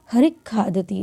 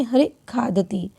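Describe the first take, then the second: First: Said in the usual way. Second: हरि खादति with a sharp catch before खादति; jerk before kha. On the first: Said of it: "इसको हम कैसे बोलेंगे?". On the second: Shown as a demonstration. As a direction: clip the visarga of हरि hard into खादति. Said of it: "झटके से बोलते हैं". (हरि खादति में खादति से पहले झटका)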